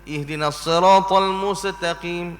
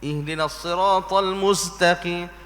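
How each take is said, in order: Both takes have the same delivery.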